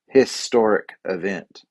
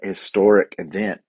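First: Historic starts with an audible H sound. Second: Historic starts with a vowel sound, no H. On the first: The speaker calls it right. "It's a historic event" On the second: The speaker calls it wrong. "There's not an historic event"

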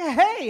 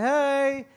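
First: The greeting is said with lively, excited inflection. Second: The greeting is said flatly, without excitement. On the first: The parent is glad to see the kids. The speaker calls it right. "Like a little inflection in your voice. A little bit like you're excited to see them" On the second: The parent is not glad to see the kids. The speaker calls it wrong. "It's not like"

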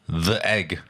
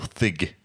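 First: It sounds like two syllables, 'the egg'. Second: It sounds like one syllable, 'thig'. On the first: The speaker calls it wrong. "it's not the egg" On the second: The speaker calls it right. "It's Thig"

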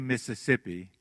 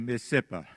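First: All syllables are said in the standard way. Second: One syllable is dropped and it ends in 'uh'. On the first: "they don't say Mississippi" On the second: "They leave out a syllable and put a on the end of it"

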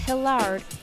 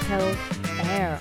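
First: The name ends with a d sound. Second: The name ends like the word air. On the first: The speaker calls it wrong. "It's not Hillard" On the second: The speaker calls it right. "it's Hilaire, like hill and air on top"

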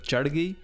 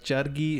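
First: The R is a heavy, flapped sound. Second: The R is a light, plain sound. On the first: This is how a native speaker says it. The speaker calls it right. "instead of jargi" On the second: This is how a UK-born singer says it. The speaker calls it wrong. "When he said those kinds of words, like jargi"

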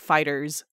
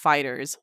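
First: The name ends in a stressed Z sound. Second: The name ends in a plain unstressed s sound. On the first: The speaker calls it wrong. "or you don't emphasize the Z like FighterZ" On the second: The speaker calls it right. "It is just FighterZ, like the regular way of saying FighterZ"

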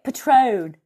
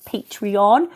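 First: The word is said with two syllables. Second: The word is said with three syllables. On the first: The speaker calls it wrong. "I was calling it Patron" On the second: The speaker calls it right. "it's actually like Patreon"

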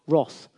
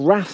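First: It is said with a British accent. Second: It is said with an American accent. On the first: The speaker calls it right. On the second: The speaker calls it wrong.

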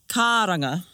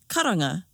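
First: One vowel is drawn out long. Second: All the vowels are said short. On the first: The speaker calls it wrong. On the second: The speaker calls it right.

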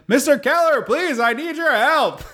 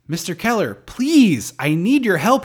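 First: It is shouted with flat, unchanging inflection. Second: It is spoken with varied emphasis and inflection. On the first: "instead she's just like" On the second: "the line is"

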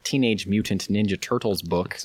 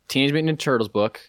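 First: The words are separated and clearly articulated. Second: The words are run together and poorly articulated. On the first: The speaker calls it right. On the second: The speaker calls it wrong.

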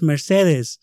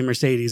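First: The name is said with a Spanish accent. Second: The name is said with an American accent. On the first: This is how the residents say the name. "they're like, no, it's Mercedes" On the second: This is how the speaker says the name. "I say Mercedes"

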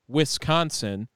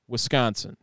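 First: The s and c are said more separately. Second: The s and c run together smoothly. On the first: This is how outsiders say it. "it took so much for me to say it" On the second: This is how locals say it. "The way Wisconsinites say it is the SC is very connected"

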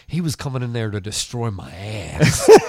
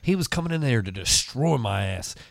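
First: The word 'ass' is stressed. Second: The word 'destroy' is stressed. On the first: The intruder had sexual intentions. "Sounds like he's got some slightly different intentions" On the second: The intruder meant to beat the speaker up. "it would have sounded like, oh, man, he's going to fuck you up"

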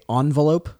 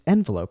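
First: The word begins with an 'ah' vowel sound. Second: The word begins with an 'eh' vowel sound. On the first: The speaker calls it wrong. "My pet peeve is when people say envelope" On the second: The speaker calls it right. "It starts with an E"

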